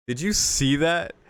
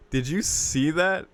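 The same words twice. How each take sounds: The two takes are said the same way.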